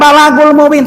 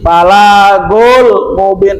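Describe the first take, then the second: First: The vowel after the L is short. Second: The vowel after the L is held long. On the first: The speaker calls it wrong. "Jangan balagul mubin, salah" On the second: The speaker calls it right. "nah gitu bacanya"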